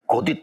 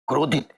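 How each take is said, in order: First: It is said without an r after k. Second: It is said with an r after k. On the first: The speaker calls it wrong. "तुम गलत बोल रही हो" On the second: The speaker calls it right. "बीच में आर लगा ले"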